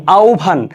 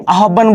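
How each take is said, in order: First: আহ্বান said as "aub-bhan", h shifting into a breathy bh; correct pronunciation. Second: আহ্বান said as "a-hob-ban", spelling-style with doubled b; wrong pronunciation. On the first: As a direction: say আহ্বান as "aubbhan", falling. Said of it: "উচ্চারণটা কি হবে". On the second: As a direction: read আহ্বান letter by letter as "ahobban". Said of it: "এটা কিন্তু আহ্বান না". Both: Shown as a demonstration.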